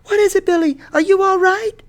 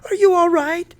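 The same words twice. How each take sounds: First: High, loud alarmed call back; frightened shout. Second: High, loud anxious question; scared voice. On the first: Frightened mother calling back to her son, shouting. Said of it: "In a frightened voice, she shouted back". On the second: Mother checking on her son, scared. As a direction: pitch it way up in alarm. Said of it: "Mama asked in a scared voice". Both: A narrator's reading.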